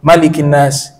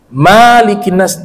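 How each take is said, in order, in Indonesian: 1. Vokal pertama dari malikin tetap pendek. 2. Vokal pertama dari malikin dipanjangkan. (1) "Dia harus dibaca qasar, pendek" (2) "tidak boleh panjangkan kata Malik"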